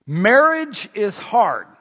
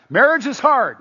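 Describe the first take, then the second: First: Slow, loud Marriage is hard; emphatic statement. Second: Marriage is hard thrown out higher and louder; louder repeat. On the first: Pastor stressing to couples that marriage is hard, slowly. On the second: Pastor repeating the line louder to grinning spouses. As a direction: punch it back at the laughing couples. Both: Shown as a demonstration. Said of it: "I wanna emphasize".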